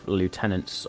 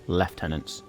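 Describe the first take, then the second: First: It is pronounced the American way, loo-tenants. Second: It is pronounced the British way, lef-tenants.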